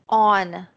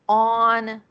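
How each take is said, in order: First: The word begins directly with a vowel. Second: The word begins directly with a vowel.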